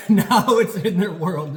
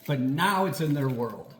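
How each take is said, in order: First: Now drawn out loud and slow, with a laugh; laughing, lean hard on Now; stress on Now. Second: Said in the usual way. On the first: Shown as a demonstration.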